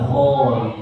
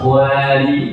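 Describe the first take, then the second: First: The long vowel after kh sounds heavy and thick. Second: The long vowel after kh sounds light and thin. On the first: The speaker calls it right. "kena baca juga tebal" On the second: The speaker calls it wrong. "Salah, dia baca khwali, tidak betul"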